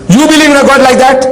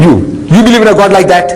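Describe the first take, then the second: First: "believe" lifted higher, pressed in disbelief; emphatic repeat. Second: Said in the usual way. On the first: Shown as a demonstration. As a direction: ask "You believe in a God like that?" again, pitched higher and pointed.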